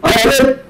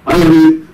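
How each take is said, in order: First: It is said at a raised, projected pitch. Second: It is said at a normal pitch.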